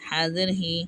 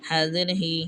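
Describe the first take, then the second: Both takes have the same delivery.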